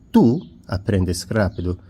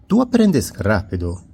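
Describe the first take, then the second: First: Tú punched and set apart by a pause; stress on TÚ. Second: Said in the usual way. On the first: Shown as a demonstration. Teacher repeats the example to highlight the pronoun, stress on Tú. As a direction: isolate Tú, then finish the phrase. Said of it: "este tú con tilde".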